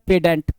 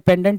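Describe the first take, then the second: First: The n sound is left out in the middle. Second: The n sound is pronounced in the middle.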